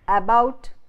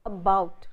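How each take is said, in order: First: The first vowel is a longer full vowel. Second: The first vowel is a short schwa. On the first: The speaker calls it wrong. "instead of saying" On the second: The speaker calls it right. "this vowel schwa is used either at the beginning of words"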